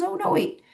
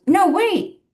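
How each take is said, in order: First: High-pitched mock protest at normal volume; mocking imitation. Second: High, louder mock interjection; imitated protest. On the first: Child mimicking the elderly woman's words, mocking imitation. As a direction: mimic her, pitched way up without extra force. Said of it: "and I mock". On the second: Elderly wife stopping husband from grabbing bag, imitated protest. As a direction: pitch it way up, imitating her. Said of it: "and she goes".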